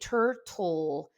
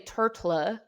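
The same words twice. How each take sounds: First: The final L is held like 'ol'. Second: The final L is released like 'la'. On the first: The speaker calls it right. "I say turtle. Ol is the vowel here" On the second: The speaker calls it wrong. "If that's not la, I don't say turtle"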